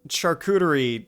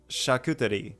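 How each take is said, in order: First: The word is said with an English accent. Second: The word is said with a French accent. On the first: "charcuterie with an English accent" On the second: "in French it's like"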